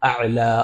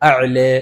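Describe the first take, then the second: First: The final vowel is a fully open 'a'. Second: The final vowel is tilted slightly toward 'e'. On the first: "ഫത്ഹ്" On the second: "കുറച്ച് ചരിച്ചിട്ട്"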